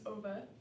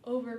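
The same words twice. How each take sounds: First: The R sound at the end is dropped. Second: The R sound at the end is pronounced.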